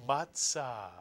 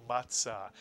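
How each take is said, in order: No difference in how they are said.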